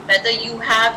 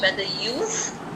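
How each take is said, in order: First: "You have" is said as two full words. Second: "You have" is shortened to one syllable. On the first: "whether you have becomes" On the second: "becomes whether you've"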